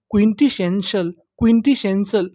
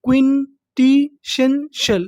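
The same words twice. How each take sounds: First: Said in the usual way. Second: क्विंटिशेंशल drawn out slowly, syllable by syllable. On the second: Shown as a demonstration. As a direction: stretch क्विंटिशेंशल slowly for students. (क्विंटिशेंशल को धीरे धीरे तोड़कर बोलिए) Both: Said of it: "तो meaning पूरी".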